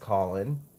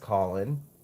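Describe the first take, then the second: First: The name is said like Colin. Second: The same.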